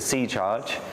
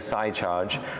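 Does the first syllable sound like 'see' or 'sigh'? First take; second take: see; sigh. First: The first syllable sounds like 'see'. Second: The first syllable sounds like 'sigh'. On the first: Someone else says it this way. "he calls it the C-Charge" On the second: This is the speaker's own choice. "It sounds like sci-fi"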